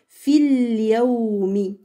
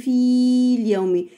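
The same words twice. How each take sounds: First: The 'f' links straight into 'l' with a short vowel. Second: The long 'ya' vowel is pronounced before the 'l'. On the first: The speaker calls it right. "on fait la liaison de l'fa al-lam. ... On prononce pas le ya" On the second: The speaker calls it wrong. "J'ai pas dit"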